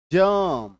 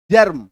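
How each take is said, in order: First: जर्म with the r only half sounded, almost जम. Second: जर्म with the r rolled out in full, loud; the wrong way: जर्म with a full, heavy r. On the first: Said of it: "दूसरा वाला ना". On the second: Teacher showing students the wrong way: full rolled r. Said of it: "अभी मैं दो तरीके से बोलूंगा". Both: Shown as a demonstration.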